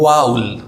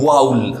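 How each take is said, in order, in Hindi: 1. यह 'ow' ध्वनि के साथ बोला जाता है, 'vowl'। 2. यह 'ow' ध्वनि के साथ बोला जाता है, 'vowl'।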